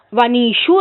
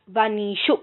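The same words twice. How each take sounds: First: వనీషు spelled out slowly, every syllable drawn out; slow clear ending. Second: Said in the usual way. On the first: Shown as a demonstration. Teacher drills students on the form, slow and careful. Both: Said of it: "వనీషు రావాలి".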